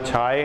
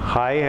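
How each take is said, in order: First: The word begins with an aspirated chh sound. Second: The word begins with an h sound. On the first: "ना छाए है" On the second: "ना हाय है"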